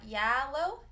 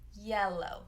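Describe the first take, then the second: First: The first vowel sounds like the one in cat. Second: The first vowel sounds like the one in bed. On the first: The speaker calls it wrong. "not yellow" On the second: The speaker calls it right. "eh, yellow"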